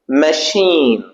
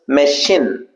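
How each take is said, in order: First: The second syllable has a long vowel. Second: The second syllable has a short vowel. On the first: The speaker calls it right. "it's sheen" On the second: The speaker calls it wrong. "we uh, tend to pronounce this machine. It's not shin"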